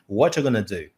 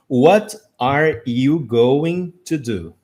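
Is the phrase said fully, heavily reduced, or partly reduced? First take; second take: heavily reduced; fully. First: Are is dropped and going to becomes gonna. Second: Every word is pronounced fully and separately. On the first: It is how people really say it every day. "Ou what you gonna do?" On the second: It is read word by word from a book. "pegar um livro e ler a frase assim"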